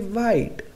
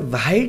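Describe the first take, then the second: First: No h sound is heard before the w. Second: An h sound is heard before the w. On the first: The speaker calls it right. "W के बाद जो एच आता है उसका उच्चारण नहीं होता" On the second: The speaker calls it wrong. "अब हम इसे वाइट नहीं पढ़ेंगे"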